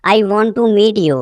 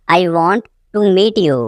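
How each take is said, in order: First: Said in the usual way. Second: Teacher splitting it after "want"; broken-up repeat. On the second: Shown as a demonstration.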